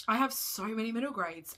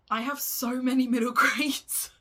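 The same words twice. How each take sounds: First: Said in the usual way. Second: Laughing through the confession, louder and higher. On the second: Real, not acted. To her viewers about her book pile, laughing. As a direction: blurt it out mid-laugh at your own excess.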